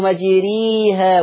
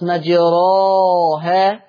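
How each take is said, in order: First: The vowel after r is a pure i. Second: The vowel after r is a pure open a. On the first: "ولا أنا جبتها ياء خالصة زي ما في ناس بيقولوا" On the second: "لا أنا جبتها فتح خالص مجراها"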